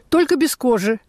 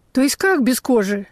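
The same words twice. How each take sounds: First: Said in the usual way. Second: "как" stressed as a baffled question; mild bewildered emphasis on "как"; puzzled stress on как. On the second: A narrator's reading. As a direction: query it, leaning on "как". Customer questions the vendor's condition.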